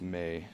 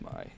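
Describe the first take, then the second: First: The vowel sounds like the word 'may'. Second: The vowel sounds like the word 'my'. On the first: "I've heard people pronounced the voice bank as May" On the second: "it's my"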